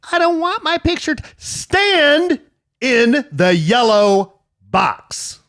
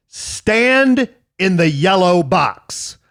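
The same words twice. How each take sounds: First: Much higher, slow, louder repeated order; the fed-up dad finally loses it; exasperated dad yelling. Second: Slow, louder barked order; stern dad order. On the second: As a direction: spell each word out like a fed-up dad. Dad yelling at kid for photo. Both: Retold or imitated.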